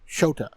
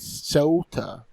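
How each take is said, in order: First: The name begins with a 'sh' sound. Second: The name begins with an 's' sound. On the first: This is how it sounded in the dub. The speaker calls it wrong. "I'm hearing her say S H O T A" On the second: This is the character's actual name. The speaker calls it right. "I know his name is Sota. There's no H"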